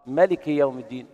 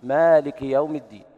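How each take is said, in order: First: Chanted ملك with a short clipped first vowel; without the alif. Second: Chanted مالك with the alif held long. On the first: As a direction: recite ملك with a short e, melik. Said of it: "بالحذف". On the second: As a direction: recite مالك with a long a, maalik. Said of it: "كما نقرأ لحفص". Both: Shown as a demonstration.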